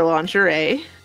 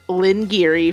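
First: It is said the usual way, lon-zhuh-ray. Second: It is said like the name Lynn Geary.

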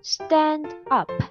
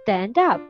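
First: The two words are said separately, without linking. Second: The final d links smoothly into the next word.

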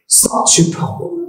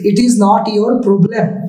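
First: It is said fast, words run together. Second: It is said slowly, each word apart. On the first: The speaker calls it right. "how to speak fast?" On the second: The speaker calls it wrong. "Erokom bolle to slow hobe"

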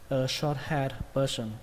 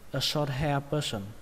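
First: The d sound after hair is clearly said. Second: The d sound after hair is left out. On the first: "Còn bạn nào cẩn thận hơn thì nên có âm đờ" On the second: "Các bạn có thể đọc là a short hair person. Không cần âm đờ cũng được"

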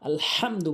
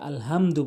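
First: The h is a deep h from the throat. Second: The h is a light, ordinary h sound. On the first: The speaker calls it right. "আলহামদু বলতে হবে" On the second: The speaker calls it wrong. "এই হাতে আমরা ভুল করে থাকি, আমরা আলহামদু বলি। ভাই এরকম বলা যাবে না"

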